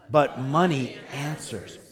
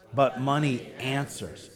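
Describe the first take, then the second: First: It is said more loudly. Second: It is said at normal volume.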